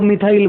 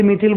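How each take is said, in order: First: मिथाइल with an "eye" glide, "mi-thail"; common variant. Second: मिथिल with short i, "mi-thil"; personal pronunciation. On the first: Teacher quotes what many people say, मिथाइल said "mi-thail". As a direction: end मिथाइल like "tile", not "till". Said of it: "बहुत से लोग मिथाइल बोलते". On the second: Teacher shows students his own choice, मिथिल said "mi-thil". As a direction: end मिथिल like "till", not "tile". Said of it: "मैं खुद personally मिथिल बोलता". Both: Shown as a demonstration.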